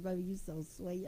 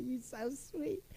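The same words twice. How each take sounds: First: Said in the usual way. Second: Slow, lingering "You so sweet" with "sweet" stretched; drawn-out sweet talk. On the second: Retold or imitated. Husband answering "how sweet", slow and lingering. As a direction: savor each word like a lover. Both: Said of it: "He said".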